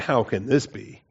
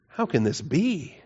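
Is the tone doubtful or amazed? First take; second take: doubtful; amazed. First: It sounds doubtful and skeptical. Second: It sounds amazed and full of wonder.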